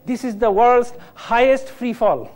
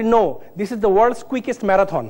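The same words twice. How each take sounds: First: Said in the usual way. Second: Slow punchline. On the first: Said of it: "তো সবাই বলছে". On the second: Retold or imitated. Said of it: "আমি বলি".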